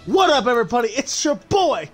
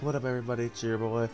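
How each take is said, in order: First: It is said loudly with lots of energy. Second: It is said flatly with little energy. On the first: The speaker calls it right. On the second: The speaker calls it wrong.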